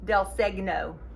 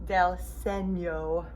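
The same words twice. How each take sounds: First: Segno is read the way it is spelled. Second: Segno is said with an Italian pronunciation. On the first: The speaker calls it wrong. "Looks like it should be del Segno" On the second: The speaker calls it right. "but it's Italian, so it is the del Segno"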